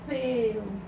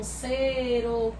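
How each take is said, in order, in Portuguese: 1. A primeira consoante é um som de th, com a língua entre os dentes. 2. A primeira consoante é um som de s normal. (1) "na Espanha eles costumam falar o C de uma maneira como se fosse entre os dentes" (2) "na América costuma pronunciar tudo com som de S mesmo"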